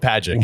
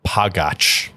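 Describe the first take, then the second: First: The name is said to rhyme with magic. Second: The name is said the Slovak way. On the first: "that's the way to do it here in America" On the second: "they pronounce it pagac"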